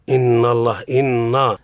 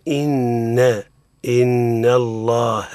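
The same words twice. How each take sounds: First: "إن" said with a heavy, thickened n; wrong heavy articulation. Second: "إن" with a light, thin, held n; correct light nun. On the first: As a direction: thicken the nasal in "إن" too early, as a mistake. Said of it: "قلنا المفخم حينما تقول". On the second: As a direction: draw out "إن الله" slowly, n kept thin before the heavy name. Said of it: "الصواب هو". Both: Shown as a demonstration.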